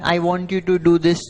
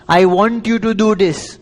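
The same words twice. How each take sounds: First: It is said in a gentle tone. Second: It is said in a commanding tone.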